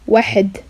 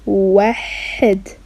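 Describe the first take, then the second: First: It is said at a faster pace. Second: It is said at a slower, careful pace.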